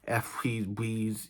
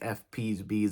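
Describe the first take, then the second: First: The F, P and B sounds are slightly slurred. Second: The F, P and B sounds are crisp. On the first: The speaker calls it wrong. "when I release" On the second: The speaker calls it right. "if I pull my face like this, now I sound exactly with my correct voice"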